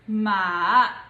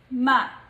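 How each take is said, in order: First: It is said in the third tone. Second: It is said in the neutral tone. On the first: "the third tone would be" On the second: "the last one is the neutral tone"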